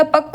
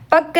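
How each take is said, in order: First: पक्क with a rounded ending, "pakko"; correct पक्क. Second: पक्क ending on a plain doubled k; wrong पक्क. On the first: Teacher gives the right form, पक्क ending rounded. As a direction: add a rounded sound after the k of पक्क. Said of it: "होता है". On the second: Teacher shows the wrong form, पक्क ending on k. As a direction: stop पक्क on the k. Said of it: "नहीं होता". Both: Shown as a demonstration.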